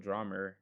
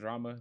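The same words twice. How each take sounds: First: The word ends with an added 'er' sound. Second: The word ends in a plain vowel. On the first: "they go drama. Like where's the E R coming from?" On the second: "instead of saying drama"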